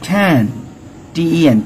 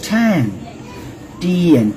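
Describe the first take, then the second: The two takes are said the same way.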